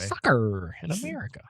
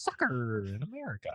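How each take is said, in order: First: Hammed-up American accent like a British actor; fake American accent. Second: Overdone American accent, hammed-up; obnoxious American. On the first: Shown as a demonstration. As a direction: overplay the American twang on "Soccer". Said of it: "like a British actor trying to do an American accent". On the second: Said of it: "the most obnoxious Am-, American way that you could say it".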